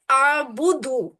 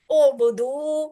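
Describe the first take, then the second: First: آبدو slow, with a long a in place of u; wrong pronunciation. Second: اعبدو with a clear rounded u on the first syllable; correct اعبدو. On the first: Teacher showing students the wrong آبدو slowly. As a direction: show the mistake: آبدو drawn out with a long a. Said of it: "اس طرح کا نہیں بننا چاہیے". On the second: Teacher to students, careful correct اعبدو. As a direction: say اعبدو starting on u, not a. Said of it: "یہ ہے آبدو". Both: Shown as a demonstration.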